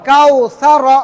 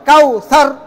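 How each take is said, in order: First: The final r is followed by a short a vowel. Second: The word stops on a bare r, unlengthened. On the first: "র জবর র" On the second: "থামলেই সাকিন হবে"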